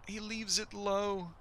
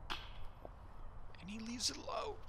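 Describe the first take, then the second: First: Said in the usual way. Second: Hushed, slow golf commentator call; drawn-out hushed call of the putt. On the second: Acted.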